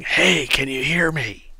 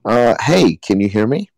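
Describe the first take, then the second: First: Slow, soft and distant, as if through stone; muffled from above. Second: Yelling down. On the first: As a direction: call faintly from far overhead. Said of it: "you hear a muffled voice from above". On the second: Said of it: "what do you yell?". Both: Acted.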